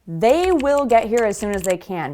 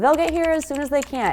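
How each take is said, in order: First: They will is said as two full words. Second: They will is squeezed into one short word.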